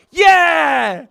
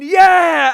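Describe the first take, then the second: First: Loud mock victory yell, higher; triumphant shout; imitating a scream. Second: Loud mock victory yell, higher and louder; taunting yell; imitating a scream. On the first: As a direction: bellow it like the fighter in his corner. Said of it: "in his corner screaming". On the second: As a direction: shout it at the fallen man.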